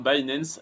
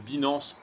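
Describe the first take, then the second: First: The name is said with an English accent. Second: The name is said with a French accent.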